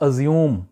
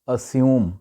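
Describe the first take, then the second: First: It is said with a South Asian accent. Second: It is said with a native English accent. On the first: The speaker calls it wrong. "इसको वहाँ पे बोला जाता है अज्यूम" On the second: The speaker calls it right. "Actual इसका तलफ़ुज़ है अस्यूम"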